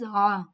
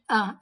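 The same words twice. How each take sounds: First: It comes from the middle of the throat. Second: It is a plain catch like Hamza. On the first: The speaker calls it right. "It is A" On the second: The speaker calls it wrong. "Don't say it A. It is not Hamza"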